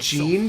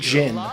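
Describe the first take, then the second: First: The name has a long 'ee' vowel. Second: The name has a short 'i' vowel. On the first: This is how the players say the name. "we keep pronouncing it Jean" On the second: This is how the game's voices say the name. "they keep pronouncing it Jin"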